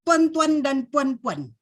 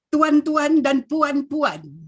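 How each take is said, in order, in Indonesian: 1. Kedua vokal meluncur bersama menjadi satu suku kata. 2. Kedua vokal diucapkan sebagai dua suku kata yang terpisah. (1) "Terus disebut sebagai geluncuran" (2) "bukan sebagai dua suku kata"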